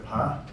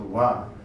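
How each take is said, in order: First: The syllable begins with a p sound. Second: The syllable begins with a w sound. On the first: This is the Central Tibetan pronunciation. "In Central Tibet it's a pa" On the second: This is the Amdo pronunciation. "in Amdo it's a wa"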